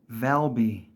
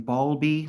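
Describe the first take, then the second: First: The name begins with a 'val' sound. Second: The name begins with a 'bal' sound. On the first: The speaker calls it right. "It's Valby" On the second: The speaker calls it wrong. "lately I've been hearing Balby, like with bees"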